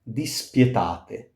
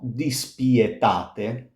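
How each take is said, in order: First: The i glides into the e in one syllable. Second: The i and e are two separate syllables. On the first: The speaker calls it right. "with a glide" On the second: The speaker calls it wrong. "it's not dispietate"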